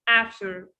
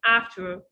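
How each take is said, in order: First: The T sound in the middle is dropped. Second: The same.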